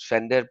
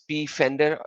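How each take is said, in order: First: The name starts with an F sound. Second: The name starts with an audible P sound. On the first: "or you can pronounce it as Fender. P is silent" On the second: "I always say P Fender because so that people will understand that there is a P"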